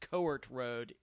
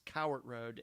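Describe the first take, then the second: First: The name begins with a 'coe' sound. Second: The name begins with a 'cow' sound. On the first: The speaker calls it wrong. "I think I referred to it as Coart Road in the video, unfortunately" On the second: The speaker calls it right. "the proper pronunciation is Cowart Road"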